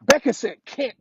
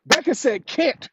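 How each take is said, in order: First: Put-on a light excited kid voice, louder; daughter's reveal. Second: Said slowly and louder, can't rising at the end; amused dad repeating the punchline, slowly. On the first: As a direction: lightly imitate the little girl blurting it out. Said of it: "She said". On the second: Real, not acted. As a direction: savour each word, lift can't.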